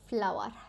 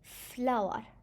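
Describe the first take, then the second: First: The F is said the usual English way. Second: The F is said like the Arabic letter Fa. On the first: "I know you guys say flower" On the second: "it would be correct"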